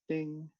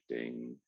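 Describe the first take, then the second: First: It is said in a bright, cheerful way. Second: It is said in a dark, dramatic way. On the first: The look is cheerful and friendly. The speaker calls it right. "people are upbeat and kind of smiley. So that's why commercial headshots usually are like ding" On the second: The look is dramatic and intimidating. The speaker calls it wrong. "not like ding"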